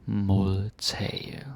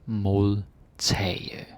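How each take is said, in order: No difference in how they are said.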